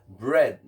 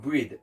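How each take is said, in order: First: BREAD with a short "eh", like "bred"; correct pronunciation of BREAD. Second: BREAD said as "breed", with a long "ee"; mispronounced BREAD. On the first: Teacher shows learners how it's pronounced, BREAD as "bred". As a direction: say BREAD to rhyme with "red". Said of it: "it pronounce like bread". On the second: Teacher warns learners what not to say, BREAD as "breed". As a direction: make BREAD rhyme with "need". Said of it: "not bread". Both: Shown as a demonstration.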